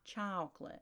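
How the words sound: It is said with a Southern drawl. The speaker calls it wrong. "not chocolate ... picking on Southers"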